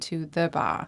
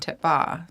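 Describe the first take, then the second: First: The word 'the' is said fully and clearly. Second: The word 'the' is cut down to almost nothing. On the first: "we don't say to the bar" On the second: "We'll say we're going to bar"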